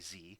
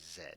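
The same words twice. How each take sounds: First: The letter is named in the American way. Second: The letter is named in the British way.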